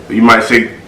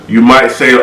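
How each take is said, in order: Both takes have the same delivery.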